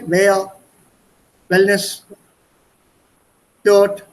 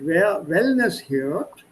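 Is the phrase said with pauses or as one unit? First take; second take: with pauses; one unit. First: It is broken up with pauses between words. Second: It is said smoothly as one unit.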